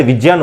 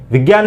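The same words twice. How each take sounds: First: विज्ञान said as vijnyan, with a j sound; correct pronunciation. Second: विज्ञान said as vigyan, with a hard g; wrong pronunciation. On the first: Teacher modelling the correct vijnyan for students. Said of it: "विज्ञान होता है". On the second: Teacher warning students off vigyan with hard g. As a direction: mispronounce विज्ञान as vigyan, the way to avoid. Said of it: "विज्ञान नहीं होता है". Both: Shown as a demonstration.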